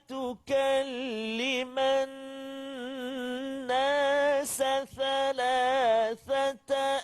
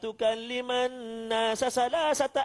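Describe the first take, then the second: First: It uses s first, then th sounds. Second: Every hissing sound is pronounced as s. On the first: The speaker calls it right. "Mula-mula sin, lepas tu baru sa. Contoh" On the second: The speaker calls it wrong. "Oh, semua sin"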